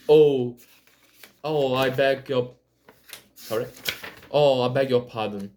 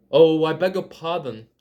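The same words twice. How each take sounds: First: Loud, rushed apology; cry of apology. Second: Quick, louder apologetic cry; hasty cry. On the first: Alice apologizing again to the bristling mouse, loud rush. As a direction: burst out, fast and sorry. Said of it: "cried Alice again". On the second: Alice hastily apologizing to the frightened mouse, loud cry. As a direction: blurt the apology in a rush. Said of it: "cried Alice, hastily". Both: A narrator's reading.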